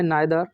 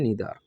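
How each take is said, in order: First: The first vowel sounds like 'eye'. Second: The first vowel sounds like 'ee'. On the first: "अगला है नाइदर" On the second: "या जिससे हम कह देते हैं नीदर"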